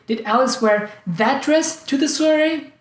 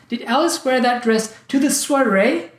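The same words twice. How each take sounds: First: The word that is stressed. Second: The word soiree is stressed. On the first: She was supposed to wear another dress. "I thought she was planning to wear some other dress" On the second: She was supposed to wear it elsewhere. "I thought she was going to wear it at the wedding"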